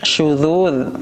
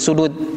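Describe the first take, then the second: First: It starts with sh and uses dh sounds. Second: It starts with plain s and uses d sounds. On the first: The speaker calls it right. "pakai shin kemudian pakai dza" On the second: The speaker calls it wrong. "Kalau enggak jadi sudud"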